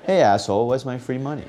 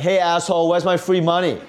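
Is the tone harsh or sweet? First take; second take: sweet; harsh. First: It is said in a sweet, polite tone. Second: It is said in a harsh, demanding tone.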